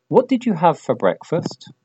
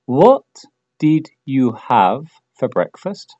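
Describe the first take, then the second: First: Said in the usual way. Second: Slow, careful, word by word; slow model question. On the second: Shown as a demonstration. Teacher models the question slowly for learners, slow and clear. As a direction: lay each word out slowly. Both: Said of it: "dilo en voz alta".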